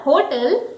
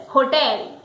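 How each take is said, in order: First: "hotel" as HO-tl, front stress; weak second syllable in "hotel", HO-tl; wrong hotel. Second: "hotel" as ho-TEL; correct hotel. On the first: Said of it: "the word is not hotel". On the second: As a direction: stress the second syllable of "hotel", full TEL. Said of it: "correct pronunciation is hotel". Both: Shown as a demonstration.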